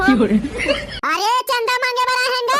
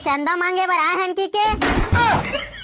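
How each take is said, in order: First: High, slow, laughing mangled ask; botched line. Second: Slow, laughing try with a rising end; asking how to say it. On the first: Pretend. Boy collecting donations fumbles his line, high and laughing. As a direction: blurt it out wrong with a giggle. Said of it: "हमन उल्टा पुल्टा बोल परे". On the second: Shown as a demonstration. Boys rehearse asking for donations, slow and questioning. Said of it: "ऐसे का?".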